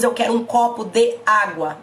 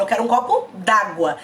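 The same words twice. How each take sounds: First: "de água" as two separate words, the "de" fully sounded; careful, over-correct "de água" without elision; unjoined vowels. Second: "d'água" run together as one word; everyday spoken elision in "copo d'água"; joined vowels. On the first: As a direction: keep "de" apart from "água" in "copo de água". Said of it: "Nós não falamos". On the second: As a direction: drop the e of "de", saying "d'água" in one go. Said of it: "Eu falo". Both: Shown as a demonstration.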